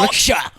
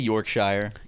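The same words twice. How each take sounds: First: It is said in a British accent. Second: It is said in an American accent.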